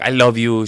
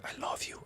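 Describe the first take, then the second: First: Said in the usual way. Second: Hushed, whispered confession. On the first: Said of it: "She tells, she whispered". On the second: Retold or imitated. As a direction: whisper it very softly, without voice. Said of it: "she whispered".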